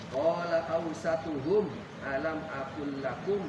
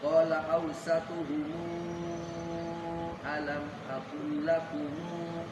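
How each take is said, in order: First: The mim endings are closed with no vowel. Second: The mim endings take a lengthened added vowel. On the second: "silahnya silah tawasud"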